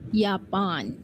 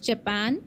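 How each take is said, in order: First: The word begins with a Y sound. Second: The word begins with a J sound. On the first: This is the German pronunciation. "In German" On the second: This is the English pronunciation. "In English"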